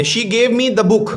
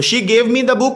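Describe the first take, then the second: First: Each word of "she gave me the book" drawn out slowly; slow, careful classroom reading; slow dictation reading. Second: Said in the usual way. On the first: Shown as a demonstration. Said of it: "teacher reads example sentence". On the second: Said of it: "teacher repeats example".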